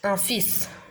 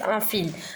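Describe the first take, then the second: First: The word ends with an S sound. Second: The word ends with an L sound. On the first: The speaker calls it right. "c'est un fils parce que le L, il est muet" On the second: The speaker calls it wrong. "Il y a des personnes qui la lisent un fil. Non"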